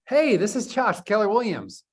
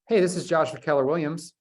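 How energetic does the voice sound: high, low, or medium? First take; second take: high; medium. First: The voice sounds very lively and high in energy. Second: The voice sounds somewhat more lively and energetic. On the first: "That sounds great. High energy" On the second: "That sounds a little bit better"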